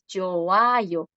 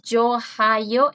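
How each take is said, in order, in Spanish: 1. La consonante del medio es muda entre las vocales. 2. Se pronuncia una consonante parecida a la h en medio. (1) "es yoayo" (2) "No es yohayo"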